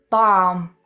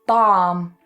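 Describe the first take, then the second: No difference in how they are said.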